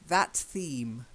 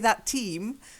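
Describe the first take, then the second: First: The second word starts with a clear th sound. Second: The second word starts with a t sound. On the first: The speaker calls it right. "Enunciate that theme" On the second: The speaker calls it wrong. "you let the T from that, the ending, infect the theme"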